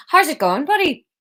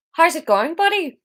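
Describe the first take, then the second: First: Higher, lilting go at Irish; limited Irish accent. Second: High-pitched, off-target Irish attempt; failed Irish accent. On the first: Reader settling on Theo's greeting, the Irish accent they can do. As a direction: do your best passable Irish accent, pitched up. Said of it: "I'll do the Irish accent I can do". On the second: Reader trying Theo's greeting, badly missed Irish accent. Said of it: "That's not an Irish accent". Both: Shown as a demonstration.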